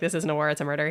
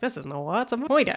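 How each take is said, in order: First: It is said in a sad, mournful tone. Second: It is said in a light, joking tone. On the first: The speaker is grieving over the killing. "he does it in the maudlin voice" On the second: The speaker is making a joke about the killing. "then he switches to a reverend and goes like"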